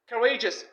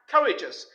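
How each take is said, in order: First: The stress is on the second syllable. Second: The stress is on the first syllable. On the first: The speaker calls it right. "in the adjective form, we stress the second syllable" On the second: The speaker calls it wrong. "not courageous"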